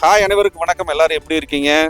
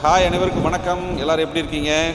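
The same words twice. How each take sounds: First: The voice is dry, with slight wind noise. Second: The voice has an added echo effect. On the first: "noise ரெடியூசரில் வந்து win puff போடாமல் பேசிகிட்டு இருக்கேன்" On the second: "இப்போ echo மோடில் voice எப்படி இருக்குன்னு பாருங்கள்"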